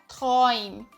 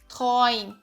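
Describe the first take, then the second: No difference in how they are said.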